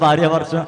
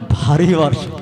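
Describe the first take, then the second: First: The first word ends in a 'rya' sound. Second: The first word ends in a long 'ree' sound. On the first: The speaker calls it wrong. "మా చిన్నప్పుడు భార్య వర్షం అనేవాళ్ళు" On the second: The speaker calls it right. "భార్య వర్షం కాదు, ఇదే వర్షం"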